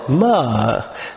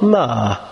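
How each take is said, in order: First: The pitch rises and then falls. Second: The pitch falls across the word. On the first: "If it's rising then falling" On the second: "If it's falling"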